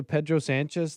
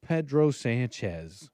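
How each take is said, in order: First: Said in the usual way. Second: Pedro Sanchez savored slowly, rising at the end; a slow, rising Pedro Sanchez, half laughing; playful drawn-out name. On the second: Pretend. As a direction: stretch out Pedro Sanchez, amused. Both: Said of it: "you could say Pedro Sanchez".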